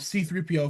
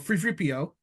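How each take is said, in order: First: The word three begins with a th sound. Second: The word three begins with an f sound.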